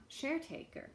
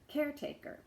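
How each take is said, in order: Both takes have the same delivery.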